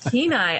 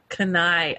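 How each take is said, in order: First: The name is said the way locals say it. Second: The name is said the way locals do not. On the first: The speaker calls it right. "Kenai, Alaska" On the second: The speaker calls it wrong. "not Kenai, Alaska, as I've pronounced it wrong multiple times"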